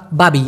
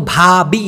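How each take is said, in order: First: "বাবি" with a plain b, no puff of breath; unaspirated b. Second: "ভাবি" with a breathy bh at the start; careful aspirated bh. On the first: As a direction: say "বাবি" with b in place of bh. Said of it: "ভটা উচ্চারণ করতে কষ্ট হয়". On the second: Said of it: "এইভাবে উচ্চারণ করি না". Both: Shown as a demonstration.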